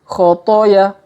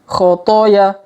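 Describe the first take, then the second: The two takes are said the same way.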